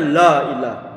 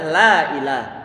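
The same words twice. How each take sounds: First: The first sound is thick and heavy. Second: The first sound is thin and light. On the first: The speaker calls it wrong. "bukan dibaca" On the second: The speaker calls it right. "tapi adalah"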